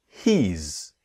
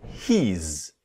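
No difference in how they are said.

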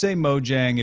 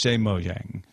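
First: The name is said with an English pronunciation. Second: The name is said with a Swedish pronunciation. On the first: "if you're speaking English" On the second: "If you're speaking Swedish"

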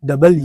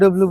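First: The name is said as two separate words. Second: The name is squeezed together into one short word. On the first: The speaker calls it right. "এটা সঠিক উচ্চারণ হচ্ছে ডাবল ইউ" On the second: The speaker calls it wrong. "আমরা হচ্ছে ডাব্লিউ ডাব্লিউ বলি।"

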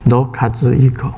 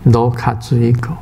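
First: The name is said in Japanese. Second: The same.

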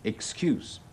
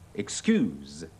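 First: The word ends with an s sound. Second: The word ends with a z sound. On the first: It is a noun meaning a pretext. "如果做名詞解借口咧係excuse" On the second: It is a verb meaning to forgive. "如果做動詞解原諒咧，要讀"

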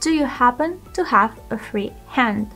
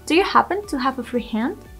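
First: The sentence is spoken slowly and carefully. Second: The sentence is spoken at a normal speed.

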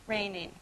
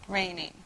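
No difference in how they are said.

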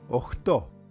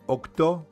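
First: The word is said with fricative consonants. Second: The word is said with stop consonants. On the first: This is the informal form. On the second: This is the formal form.

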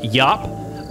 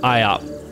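First: The name is said as one syllable, yop. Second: The name is said with separate vowels, eye-op. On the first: "It's pronounced Yop" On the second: "most English people pronounce it IOP"

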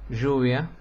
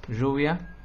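Both takes have the same delivery.

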